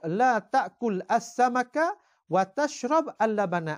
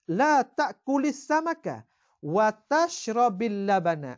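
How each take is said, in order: First: The verbs end in a bare consonant before al. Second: A linking i vowel joins each verb to the next. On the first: The speaker calls it wrong. "Asal baca dengan sukun" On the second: The speaker calls it right. "maka hendaklah kamu kasrah"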